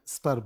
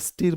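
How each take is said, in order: First: The vowel is a short 'uh' sound. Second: The vowel is a long 'ee' sound. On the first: The speaker calls it right. "स्टर बोलते हैं" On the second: The speaker calls it wrong. "स्टीर मत बोलिएगा"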